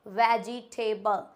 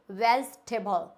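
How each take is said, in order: First: "वेजिटेबल" as ve-ji-TAY-bal, slowly; wrong pronunciation. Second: "वेजिटेबल" shortened to vej-te-bal; correct pronunciation. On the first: Teacher shows a common mistake, "वेजिटेबल" as slow ve-ji-tay-bal. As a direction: spell out "वेजिटेबल" in four slow syllables, with "table" at the end. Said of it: "वेजिटेबल एकदम गलत word है". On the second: Teacher corrects learners, "वेजिटेबल" as vej-te-bal. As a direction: say "वेजिटेबल" in three syllables, middle i dropped. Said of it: "इसको हम बोलेंगे". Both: Shown as a demonstration.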